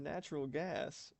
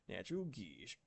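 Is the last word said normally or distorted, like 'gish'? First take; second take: normally; distorted. First: The last word is said as plain 'gas'. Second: The last word is said as 'gish'. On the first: "saying it normally" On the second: "The dude says natural gish"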